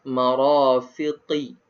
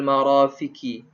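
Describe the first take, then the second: First: The q is said deep in the throat. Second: The q is said as a light front k. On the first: The speaker calls it right. "Dia kena qaf marafiqi" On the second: The speaker calls it wrong. "Bukan ilal marafiqi"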